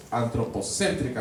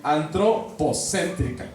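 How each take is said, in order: First: "antropocéntrica" as one word, accent on CÉN; "antropocéntrica" run together, stressed antropoCÉNtrica. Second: "antropocéntrica" drawn out slowly, part by part; teacher slowly building "antropocéntrica" from its parts; slow sounding-out. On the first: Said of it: "acento en la E". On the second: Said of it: "Es una sola palabra". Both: Shown as a demonstration.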